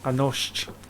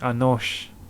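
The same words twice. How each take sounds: The two takes are said the same way.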